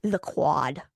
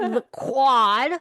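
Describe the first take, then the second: First: Low, dropped-out "the quad"; "the quad" blurted low in the throat; regurgitated answer. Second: "the quad" louder and higher; loud, incredulous "the quad"; emphatic repeat. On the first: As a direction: cough up "the quad" like a reluctant answer. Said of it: "the way I just, like, regurgitated that answer". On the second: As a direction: announce "the quad" with a rising punch on QUAD. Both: Real, not acted.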